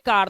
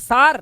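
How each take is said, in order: First: The word begins with a k sound. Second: The word begins with an s sound. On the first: The speaker calls it right. "इसे पढ़ोगे कार" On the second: The speaker calls it wrong. "सार नहीं"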